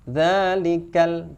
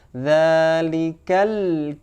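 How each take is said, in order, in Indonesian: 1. Bunyi L di akhir terhenti mendadak. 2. Bunyi L di akhir sedikit berdengung. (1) "kurang sempurna" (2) "tidak terhenti suaranya"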